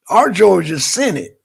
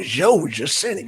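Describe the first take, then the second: First: Said in the usual way. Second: Southern Georgia accent, "Georgia" said as "Joe-juh" with no r. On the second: Shown as a demonstration. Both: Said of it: "y'all like my accent".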